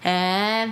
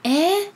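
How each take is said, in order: First: It sounds displeased and disapproving. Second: It sounds pleased and impressed.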